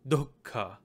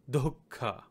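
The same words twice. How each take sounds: First: The word ends in a vowel after the k. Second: The word ends in a vowel after the k.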